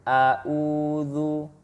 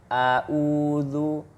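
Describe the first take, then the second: First: The second syllable starts with a glottal stop. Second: The same.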